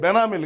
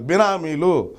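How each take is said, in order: First: The first vowel sounds like the e in bed. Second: The first vowel sounds like the i in bit. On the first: The speaker calls it wrong. "అది బెనామీలు కాదు" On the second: The speaker calls it right.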